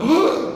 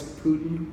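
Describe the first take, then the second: First: It is said in a startled, alarmed way. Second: It is said in a calm, normal tone.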